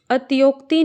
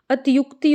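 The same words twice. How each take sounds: First: अतियोक्ति with "yok" in the middle; wrong vowel demo. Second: अतियुक्ति with "yuk" in the middle; correct vowel demo. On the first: Teacher shows the mistake, अतियोक्ति with an o sound. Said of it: "नहीं होता". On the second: Teacher corrects it, अतियुक्ति with a u sound. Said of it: "होता है". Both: Shown as a demonstration.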